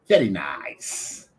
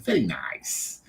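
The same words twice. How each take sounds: First: Put-on very slow vetti nice in a light Italian accent; imitating an Italian man's very nice. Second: Vetti nice with Italian vowels, said lower; light Italian-accent very nice. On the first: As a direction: quote the Italian bar owner's very nice. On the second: Retold or imitated. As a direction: repeat his accented very nice. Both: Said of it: "that was his accent".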